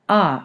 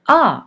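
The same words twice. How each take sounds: First: It is said at a medium pitch. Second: It is said at a higher pitch. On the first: ""Ah" being a medium pitch" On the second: ""Ah" is a higher pitch"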